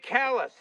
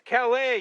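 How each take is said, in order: First: Calais said the Maine way, ending in an s; Calais as "callus". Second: Calais said the French way, silent s. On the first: Wife disputing the town's name, Calais pronounced callus. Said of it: "It's Calais, you moron". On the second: Wife correcting her husband, Calais pronounced cal-ay. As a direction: stress the open French ending of Calais. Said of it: "It ain't Calais". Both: Retold or imitated.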